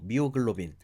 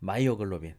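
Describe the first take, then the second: First: The word begins with the sound 'mi'. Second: The word begins with the sound 'mai'.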